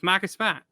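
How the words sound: The Boston accent is light and natural. The speaker sounds like a local. The speaker calls it right. "Just Marcus Smart"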